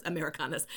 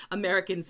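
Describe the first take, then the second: First: Americanas with Spanish vowels, ah-meh-ree-KAH-nas; lower, softer Americanas said the Spanish way; Spanish pronunciation. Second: Said in the usual way. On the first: Real, not acted. Spanish word, then English version.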